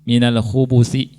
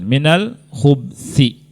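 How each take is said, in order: First: A short u vowel follows the b. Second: No vowel follows the b. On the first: "Yang pertama ba-nya domah" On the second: "Yang kedua dengan su sukun"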